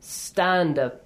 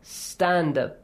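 First: The s goes straight into the t. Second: The s goes straight into the t.

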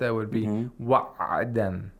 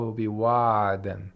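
First: The ayn is cut off like a stop. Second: The ayn flows on with continuous sound. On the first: "If we pronounce it like a letter of shadda" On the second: "Or if it's a letter of rakha"

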